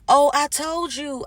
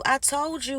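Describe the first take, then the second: First: Mock insistence. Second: "I told you." higher but dropped to a softer level; mock insistence, softer. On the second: Gaslighter insisting to the listener, softer mock "I told you.". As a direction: repeat "I told you." quieter, as if obvious. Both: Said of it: "They'll say".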